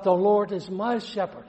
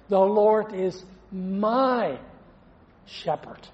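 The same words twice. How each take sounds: First: Said in the usual way. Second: Slow, emphatic my, breathy shepherd; stress on my. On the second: Shown as a demonstration. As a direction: lean hard on my, then let shepherd fade to a breath. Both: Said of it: "But the emphasis".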